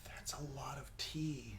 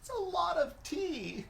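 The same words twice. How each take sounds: First: Hushed, voiceless aside; daunted whisper. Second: Very high, squeaked reaction; high-pitched dismay. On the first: Co-host eyeing the poured drink, daunted whisper. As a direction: whisper it in dismay at the glass. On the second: Co-host reacting to the tea drink, high squeal of dismay. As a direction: send the voice way up in dismay. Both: Real, not acted.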